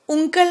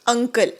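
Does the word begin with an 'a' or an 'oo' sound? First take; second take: oo; a. First: The word begins with an 'oo' sound. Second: The word begins with a short 'a' sound. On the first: The speaker calls it wrong. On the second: The speaker calls it right.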